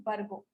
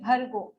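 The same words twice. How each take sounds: First: "Bargo" with plain b, softer; wrong Bargo. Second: "Bhargo" stressed, aspirated bh; correct Bhargo. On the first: Teacher showing the mistake, plain b in "Bargo". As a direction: say "Bargo" without aspiration, dropping away. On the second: Teacher repeating the right "Bhargo" with aspirated bh. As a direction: push air on the bh of "Bhargo". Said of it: "So we say". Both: Shown as a demonstration.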